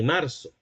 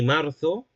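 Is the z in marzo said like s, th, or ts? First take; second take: s; th. First: The z is said with an s sound. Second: The z is said with a th sound. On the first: This is how Latin American speakers say it. "como lo diría un americano" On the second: This is how speakers in north-central Spain say it. "como un hablante perteneciente al centro norte de España"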